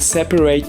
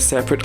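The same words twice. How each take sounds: First: The last syllable rhymes with gate. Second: The last syllable has a short weak vowel. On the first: It is used as a verb. "pour les verbes, c'est toujours eight" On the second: It is used as an adjective. "C'est la même prononciation pour les noms et adjectifs"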